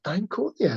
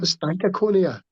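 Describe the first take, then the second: First: The name is said with four syllables. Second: The name is said with five syllables. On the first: The speaker calls it right. "no, it's just Stankonia" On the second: The speaker calls it wrong. "not Stankaconia"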